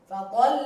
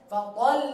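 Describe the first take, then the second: Both takes have the same delivery.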